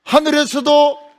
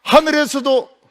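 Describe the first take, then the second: First: 하늘에서도 stretched slow, high and loud; drawn-out emphasis. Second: High, loud call of 하늘에서도; excited call. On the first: Repeating to the children, slower and more emphatic. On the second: Telling the children the sky itself rang, a high excited call. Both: A narrator's reading. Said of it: "발자국 소리가 들리는 거예요".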